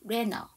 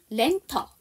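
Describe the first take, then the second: First: The t is dropped; n links into the vowel. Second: The t sound is pronounced after the n. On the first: "T 발음을 안 하고 그대로 N 발음을 어로 넘길게요" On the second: "그냥 렌터 이렇게 하시면 되는데"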